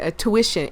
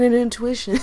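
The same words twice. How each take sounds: First: "a tuition" said as two words, a plus tuition; careful fix: "a tuition" not "intuition"; corrected word. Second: "an intuition" said as one word, intuition, by mistake; slip: "intuition" in place of "a tuition"; mispronounced word. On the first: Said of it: "I mean, excuse me". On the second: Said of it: "I mean, excuse me, a tuition". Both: Shown as a demonstration.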